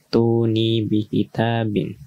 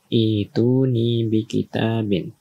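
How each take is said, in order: First: The phrase begins with a 't' sound. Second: The phrase begins with an 'i' sound. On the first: "kalau disambung, maka cara membacanya adalah hamzah wasalnya tidak dibaca" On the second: "apabila kita berhenti di sini"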